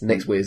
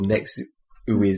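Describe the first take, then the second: First: The second syllable starts with a w sound. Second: The second syllable starts with an oo vowel. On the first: The speaker calls it right. "but it's Next Wiz apparently" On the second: The speaker calls it wrong. "I always pronounce it Next Uiz"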